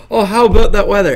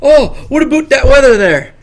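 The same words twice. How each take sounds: First: Said in the usual way. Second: Mock Canadian accent. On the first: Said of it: "No, I don't. I go". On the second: Denying he talks like this to people, mock Canadian. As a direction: exaggerate a Canadian greeting, "about" rhyming with "boot". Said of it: "do you think I seriously go up to people like".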